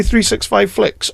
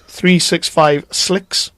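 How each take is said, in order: First: "flicks" said slowly, with an F; careful, slow "flicks" with FL at the front; clear FLICKS. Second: "flicks" turned into "slicks", with an S; slow, careful "slicks" with SL at the front; misheard SLICKS. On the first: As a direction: spell it out slowly, ending on "flicks". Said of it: "Have you heard him say". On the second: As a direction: draw it out and end on "slicks". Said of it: "it sounds like he says". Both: Retold or imitated.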